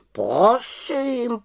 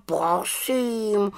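First: High, whispered huffy; offended. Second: Offended. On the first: Raven Abraxas takes offence, in a huffy whisper. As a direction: say it with wounded pride. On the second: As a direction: let the wounded pride trail off. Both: A narrator's reading. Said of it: "urazil se Abraxas".

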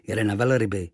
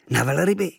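First: Said in the usual way. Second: Higher, delighted echo; boy echoing the sailor, surprised and thrilled. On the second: Acted. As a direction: catch the word with sudden joy.

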